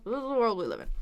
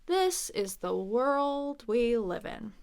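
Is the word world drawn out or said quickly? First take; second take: quickly; drawn out. First: The word world is said quickly. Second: The word world is drawn out long.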